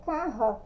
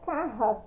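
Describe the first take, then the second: Both takes have the same delivery.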